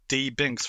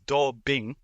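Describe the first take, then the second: First: The D is said as the letter name. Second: The D is said as the syllable do. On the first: "then he'll be D Binks" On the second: "if you read it as Do Bing"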